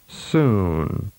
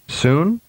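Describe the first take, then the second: First: The vowel is prolonged. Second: The vowel is held briefly. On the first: "and then with a longer duration" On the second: "with a short vowel duration first"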